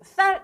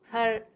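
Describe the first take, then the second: First: It starts with a tense, stiff s sound. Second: It starts with a plain, soft s sound. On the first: The speaker calls it right. "쌀 해봐" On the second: The speaker calls it wrong. "쌀이라는 발음을 전에 분들은 못하셨다고"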